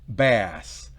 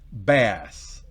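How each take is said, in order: The two takes are said the same way.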